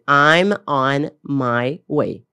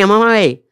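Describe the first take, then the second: First: Each word is said clearly and separately. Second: The words run together like one word. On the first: "Nós esperamos que alguém vai falar assim" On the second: "elas se juntam e parece que é uma palavra só"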